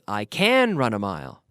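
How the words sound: The stress falls on the word can. I can do something most people cannot. The speaker calls it wrong. "the stress does not fall on the word can. I don't say"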